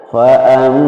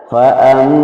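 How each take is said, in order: The two takes are said the same way.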